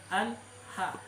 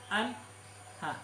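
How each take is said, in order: Both takes have the same delivery.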